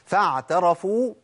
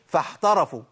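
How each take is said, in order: First: The ain is fully voiced and tight. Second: The ain turns into a breathy 'h'. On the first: The speaker calls it right. "خدوا بالكو" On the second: The speaker calls it wrong. "ما قولش فاحترفوا"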